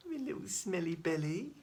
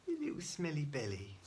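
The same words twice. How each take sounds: First: High, sing-song pet talk; baby talk. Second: Said in the usual way. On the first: Acted. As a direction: coo at the pet. Cooing at pet, repeated.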